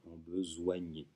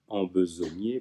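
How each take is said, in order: First: The middle syllable is said with a 'wa' sound. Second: The middle syllable is said with a plain 'o'. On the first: The speaker calls it wrong. "pas embesoigner" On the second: The speaker calls it right.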